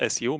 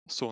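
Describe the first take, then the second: First: It is said as two separate letters. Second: It is said as one syllable. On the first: The speaker calls it wrong. "not S U" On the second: The speaker calls it right. "in Russian, you could say Su"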